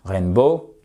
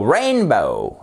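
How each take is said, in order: First: « rainbow » sans accent tonique au début; prononciation francisée. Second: « rainbow » très lent, RAIN fortement appuyé puis chute; accent tonique exagéré. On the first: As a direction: dis « rainbow » à la française, syllabes égales. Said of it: "parce que si vous dites". (« rainbow » sans appuyer sur RAIN) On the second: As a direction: appuie à fond sur le RAIN de « rainbow ». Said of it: "appuyer autant". (« rainbow » étiré, première syllabe très accentuée) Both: Shown as a demonstration.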